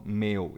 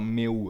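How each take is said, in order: First: "meu" ending in a weak glide u; "meu" as it is really spoken; correct pronunciation. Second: "meu" with a full, separate u; "meu" said the way it is not spoken; wrong pronunciation. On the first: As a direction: say "meu" as one syllable with a light u. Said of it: "eu falo". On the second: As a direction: stretch the u in "meu" into a full vowel. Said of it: "Eu não falo". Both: Shown as a demonstration.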